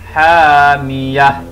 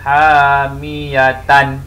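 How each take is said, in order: First: The word ends with a silent-vowel 'ah' sound. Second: The word ends with a full 'atan' sound. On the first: The reading stops at this word. The speaker calls it right. "Kerana kita hendak waqaf atau berhenti di sini" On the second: The reading continues without stopping. The speaker calls it wrong. "Tidak boleh dibaca hamiyatan"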